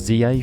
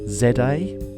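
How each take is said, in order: First: The letter Z is said the American way. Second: The letter Z is said the non-American way.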